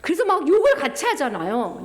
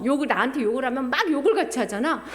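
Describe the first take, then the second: First: Said in the usual way. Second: Fast, laughing retelling. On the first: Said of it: "repeated phrase". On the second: Acted. Preacher laughing at cursing back, fast. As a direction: rush it out with a laugh. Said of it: "repeated faster with laugh".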